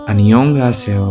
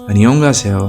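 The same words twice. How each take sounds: The two takes are said the same way.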